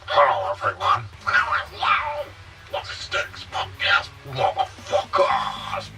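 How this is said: It is said in a layered three-tone voice.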